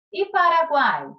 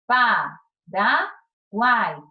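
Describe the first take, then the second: First: Said in the usual way. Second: Paraguai drawn out very slowly, syllable by syllable; slow syllable split. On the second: Shown as a demonstration. Teacher splits the word for the class, very slow syllables. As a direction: stretch Paraguai into separate syllables. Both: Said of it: "Como ficou".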